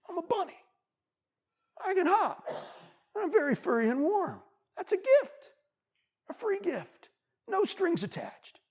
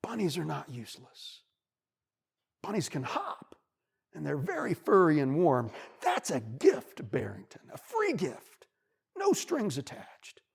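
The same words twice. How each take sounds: First: Much higher, bright squeaky bunny voice; high happy bunny. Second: Lightly voiced wise wolf; kindly, reassuring lesson; wolf's gentle advice. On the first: Acted. Bunny repeats the wolf's lesson to himself, high and happy. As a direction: chirp it out with new pride. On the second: Wolf comforts the bunny, warm and patient. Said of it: "the wolf looks at him and he says".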